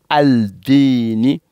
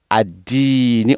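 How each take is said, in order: First: "Aldini" with the L sounded before the d; "Aldini" as al-diini, L clearly heard; wrongly pronounced L. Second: "Adini" with the L silent, long i; "Adini" as ad-diini, no L heard; assimilated sun letter. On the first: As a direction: say "Aldini", voicing the article's L. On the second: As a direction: say "Adini", doubling the d and dropping the L. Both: Shown as a demonstration. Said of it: "On ne dit pas Aldini".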